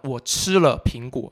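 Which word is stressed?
吃. The stress falls on the word 吃. It tells what was done to the apple. "你对苹果干嘛了"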